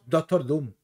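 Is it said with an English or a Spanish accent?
Spanish. Spanish accent, softer ending with less stress. "en español hablaríamos Doctor Doom, más suave"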